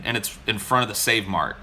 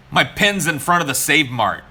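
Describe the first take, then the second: First: Said in the usual way. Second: Louder, stressing My; emphatic. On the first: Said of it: "And I look at my pin". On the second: Retold or imitated. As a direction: insist on My, louder. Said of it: "And I was like".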